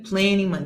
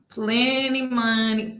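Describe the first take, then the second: First: Said in the usual way. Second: PLENTY MONEY stretched out very slowly; slow, lingering PLENTY MONEY; drawn-out mocking. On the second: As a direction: savour every syllable of PLENTY MONEY, mockingly. Mocking the man's boast.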